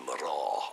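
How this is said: The word is said with an R sound after M. This is how it is said in Connacht Irish. "it's actually Maraw in, in, in Connacht Irish"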